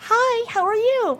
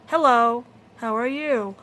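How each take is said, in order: First: It is said in a chipper, upbeat voice. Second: It is said in a depressed, flat voice.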